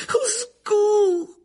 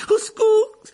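First: Slow, high wailing plea; drawn-out cry. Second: Loud, high cry for help; panicked cry. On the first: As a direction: stretch out the call in despair. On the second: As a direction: call out in terror. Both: Acted. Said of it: "murmura précipitamment Hermione".

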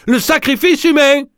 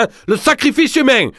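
First: Encore plus aigu, sacrifice martelé; chaviré. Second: Très aigu, sacrifice appuyé puis chute; chaviré. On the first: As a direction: hurle sacrifice en extase. (Pierre crie, chaviré, très aigu) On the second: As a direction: crie sacrifice dans un vertige. (voix chavirée, très aiguë) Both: Acted. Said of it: "chaviré".

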